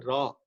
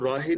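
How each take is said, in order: First: ਰਾਹ said short as raah, no final vowel; ਰਾਹ with the ending clipped off; ਰਾਹ read correctly as raah. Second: ਰਾਹੇ said with a final e sound; ਰਾਹੇ with the ending vowel, as it should not be read; ਰਾਹੇ read wrongly as raahe. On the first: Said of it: "ਇਹਨੂੰ ਪੜ੍ਹਨਾ ਹੈ ਰਾਹ". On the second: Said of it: "ਇਹਨੂੰ ਰਾਹੇ ਨਹੀਂ ਪੜ੍ਹਨਾ". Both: Shown as a demonstration.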